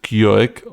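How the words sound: It is said with an American English pronunciation. The speaker calls it right. "you probably pronounce it"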